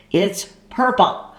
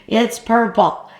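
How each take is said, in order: First: Said in the usual way. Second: Laugh-tinged disbelief at the color; incredulous repeat; amused surprise. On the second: Real, not acted.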